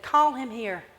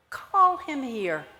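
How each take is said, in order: First: Said in the usual way. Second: Slow, gentle call; slow tender call. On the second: Acted. Jesus gently calling the blind man over, slow and tender. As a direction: draw it out lovingly. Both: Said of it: "he said".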